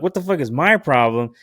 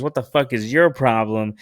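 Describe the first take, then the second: First: "my" stressed, higher, indignant echo. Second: "your" stressed in a retold challenge. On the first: Retold or imitated. Man throwing the question back at his date, stress on "my". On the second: Date snapping back at the man, stress on "your". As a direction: lean on "your", not shouted. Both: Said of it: "snowballed into a fucking yelling match".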